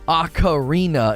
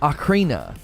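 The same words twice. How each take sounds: First: The syllables are said more separately. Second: The syllables are run together. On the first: The speaker calls it wrong. "It's not ocarina" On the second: The speaker calls it right. "They tend to run it together a little bit"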